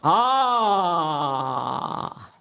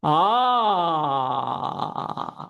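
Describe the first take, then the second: Both takes have the same delivery.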